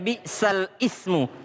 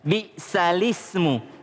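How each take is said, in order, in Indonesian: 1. 'Ismu' mulai baru dengan vokalnya sendiri. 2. 'Bi'sa' langsung menyambung ke 'lismu' tanpa jeda. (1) "Dia baca bi'sal ismu" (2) "padahal yang benar"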